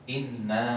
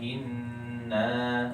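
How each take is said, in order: First: The n is doubled but has no nasal hum. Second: The doubled n is held with a nasal hum. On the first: The speaker calls it wrong. "Tapi tetap tasdid" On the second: The speaker calls it right. "harusnya bacanya inna"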